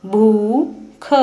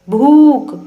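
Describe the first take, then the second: First: भूख said very slowly; slow spelling-out. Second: भूख with the ऊ held long, higher and louder. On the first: Teacher slowly sounding out भूख. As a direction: draw भूख out slowly first. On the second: Teacher repeating भूख for pupils, long and loud. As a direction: call out the ऊ of भूख. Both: Shown as a demonstration. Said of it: "लंबे समय तक और ऊंचे स्वर में पढ़ा".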